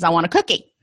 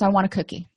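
First: It is said louder and more insistently. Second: It is said at a normal, softer volume.

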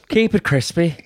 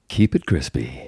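First: It is said in an Irish accent. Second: It is said in his normal accent.

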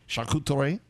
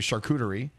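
First: It is said with a French sound. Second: It is said with an ordinary English sound.

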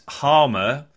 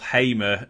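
First: The first vowel is an 'ar' sound. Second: The first vowel is an 'ay' sound. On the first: This is the name's proper pronunciation. "the pronunciation given is Gustavo Harmer" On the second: This is how most people in the country say it. "Hamer with a Y"

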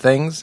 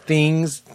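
First: The vowel is a short 'i' sound. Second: The vowel is a long 'ee' sound. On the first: This is the usual way of saying it. "instead of things" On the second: This imitates someone else's way of saying it. "my girlfriend Valerie says things, T-H-E-E-N-G-S"

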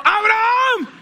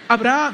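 First: The name is called out urgently and loudly. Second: The name is said calmly and quietly.

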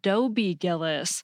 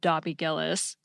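First: The first name's vowel sounds like 'go'. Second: The first name's vowel sounds like 'hot'. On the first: The speaker calls it right. "It is The Many Loves of Dobie Gillis" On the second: The speaker calls it wrong. "not The Many Loves of Dobby Gillis"

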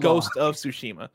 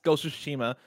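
First: The words are said fully and kept separate. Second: The words are said fast and run together. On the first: "But I am saying Ghost of Tsushima" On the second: "I guess I roll it in. If I say it fast"

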